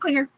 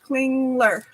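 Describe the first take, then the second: First: There is no L sound after the G. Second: There is an L sound after the G. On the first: The speaker calls it wrong. "Nope, not Klinger" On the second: The speaker calls it right. "There's an L in there"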